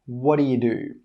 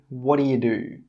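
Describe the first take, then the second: Both takes have the same delivery.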